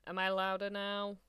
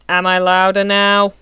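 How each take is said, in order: First: Said in the usual way. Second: Loud, asking if you can hear now; much louder check, same words; much louder mic check. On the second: Real, not acted. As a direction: speak up into the mic. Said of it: "clipping into the red".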